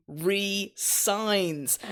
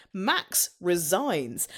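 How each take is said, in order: First: "resigns" split as ree-SIGNS, with an s sound; RESIGNS with a hyphen. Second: "resigns" drawn out slowly with a z sound; RESIGNS as quitting. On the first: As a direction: say "resigns" as re-signs, two separate words. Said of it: "he's missing a hyphen and changes the word to". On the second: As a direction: say "resigns" slowly, meaning quits. Hyphen joke, first reading. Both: Shown as a demonstration.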